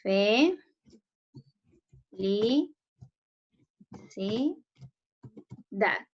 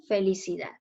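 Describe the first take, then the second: First: Fe, li, si, da as four isolated syllables, long pauses between. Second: Said in the usual way. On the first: Shown as a demonstration. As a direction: dictate each syllable alone, Fe, li, si rising, da falling. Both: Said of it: "separen felicidad".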